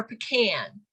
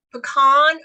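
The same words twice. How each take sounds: First: "pecan" with the a of "can"; pecan as puh-KAN. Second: "pecan" with an ah in the stressed second syllable; pecan as puh-KAHN. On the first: Trainer contrasting vowel sounds, "pecan" as puh-KAN. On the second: Trainer contrasting vowel sounds, "pecan" as puh-KAHN. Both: Shown as a demonstration. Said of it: "Do you say".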